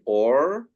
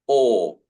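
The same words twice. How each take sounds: First: Or with the R sounded, rising; American accent on or. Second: Or said long, with no R; British accent on or. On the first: Teacher showing the American accent on one word. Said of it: "Americans would say or". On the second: Teacher showing the British accent on one word. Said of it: "We would say". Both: Shown as a demonstration.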